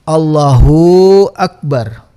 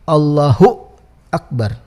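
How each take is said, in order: First: The 'hu' is stretched into a long vowel. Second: The 'hu' ends in an added glottal stop. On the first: "hunya panjang, ada u sepertinya" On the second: "ditambah seperti ada hamzah"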